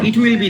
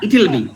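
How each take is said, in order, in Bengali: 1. will শব্দটি পূর্ণভাবে উচ্চারিত হয়। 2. will শব্দটি it-এর সাথে মিশে সংকুচিত হয়। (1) "না"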